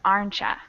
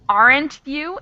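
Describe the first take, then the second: First: The words blend into one reduced word. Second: The two words are said fully and separately.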